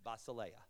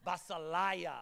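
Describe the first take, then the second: First: Basileia as bah-see-LAY-uh, lower and flat; correct Greek pronunciation. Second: Basileia as bah-seh-LIE-uh, loud and grand; playful wrong pronunciation. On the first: Pastor showing the correct Basileia, deliberately unexciting. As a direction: say Basileia with LAY, dull and dutiful. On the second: Pastor showing the church's favorite Basileia, relishing it. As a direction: say Basileia with LIE, proud and showy. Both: Shown as a demonstration. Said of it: "Doesn't basileia sound better than basileia?".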